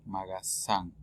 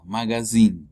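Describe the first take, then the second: First: "Magasin" with an S and "-an" ending; "Magasin" sounded out low and soft, ending "-san". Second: "magazine" with a buzzing Z and "-in" ending; teacher's contrast take, "magazine" with Z. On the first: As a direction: end "Magasin" on "san", softly. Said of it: "Magasin es con S". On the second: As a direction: end "magazine" on a clear "een". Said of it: "Magazine con Z es revista". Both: Shown as a demonstration.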